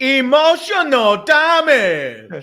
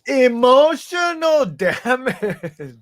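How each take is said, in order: First: Put-on slow, high drawn-out meme accent; mock Asian accent. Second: Slow, high meme voice with laugh; mock Asian accent. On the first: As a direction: stretch it out like the meme. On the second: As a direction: draw out each word, laughing. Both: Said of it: "You can do it better".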